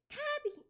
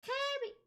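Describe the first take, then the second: First: Very high squeaky Kirby; Kirby voice, higher. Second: Tiny squeaky high Kirby voice. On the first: Retrying Kirby after not high enough, squeakier. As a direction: push the squeak up into Kirby's range. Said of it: "get it in the right spot". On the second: Streamer doing Kirby Puyo for Discord friend, squeaky high. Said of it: "That's not high enough". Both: Retold or imitated.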